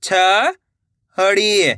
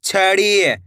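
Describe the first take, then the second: First: "छड़ी" split with a pause; rising छ, pause, then ड़ी in "छड़ी"; syllable by syllable. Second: Said in the usual way. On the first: Shown as a demonstration. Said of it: "एक एक अक्षर का उच्चारण". ("छड़ी" को तोड़कर, छ... ड़ी) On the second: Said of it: "तो मिलके बन जाएगा".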